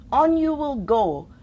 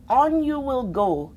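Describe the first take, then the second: No difference in how they are said.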